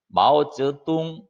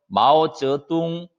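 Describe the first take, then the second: The two takes are said the same way.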